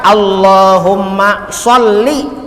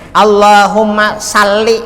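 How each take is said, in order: First: The s sound is heavy and emphatic. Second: The s sound is light and plain. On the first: The speaker calls it right. "huruf sod" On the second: The speaker calls it wrong. "Jangan diulah sin"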